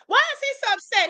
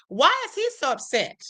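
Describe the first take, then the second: First: Much higher, insistent repeat; pointed repeat. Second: Said in the usual way. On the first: Shown as a demonstration. Streamer presses viewers on the point, high insistent repeat. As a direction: hit WHY high to make them think.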